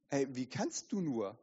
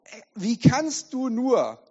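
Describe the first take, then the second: First: Soft, low "wie kannst du nur"; accusing inner voice. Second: Loud, high, drawn-out reproach; slow outraged cry of disbelief; accusing inner voice. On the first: Inner voice shaming the sinner, soft low reproach. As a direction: reproach quietly, voice lowered. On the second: Inner voice shaming a church leader, loud slow outrage. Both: Acted. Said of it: "Diese Stimme setzt wieder an und sagt".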